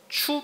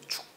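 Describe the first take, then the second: First: The syllable ends with a plain u vowel. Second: The syllable ends with a k sound. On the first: "추 발음도 납니다" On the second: "축 발음도 나고"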